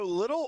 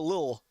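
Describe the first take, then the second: First: The word is said with two full syllables. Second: The word is clipped to one short syllable. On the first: "should we go little" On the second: "or lil, like L I L"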